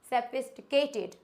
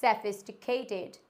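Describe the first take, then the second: First: "सोफिस्टिकेटेड" as se-pist-kay-ted; wrong pronunciation. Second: "सोफिस्टिकेटेड" as se-fis-ti-kay-ted; correct pronunciation. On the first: Teacher shows a mistake, "सोफिस्टिकेटेड" as se-pist-kay-ted. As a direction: say "सोफिस्टिकेटेड" with "tik" squeezed. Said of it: "But ये गलत होता है". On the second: Teacher corrects learners, "सोफिस्टिकेटेड" as se-fis-ti-kay-ted. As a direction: give "सोफिस्टिकेटेड" every syllable, with a clear f. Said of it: "इसको हम पढ़ते हैं". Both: Shown as a demonstration.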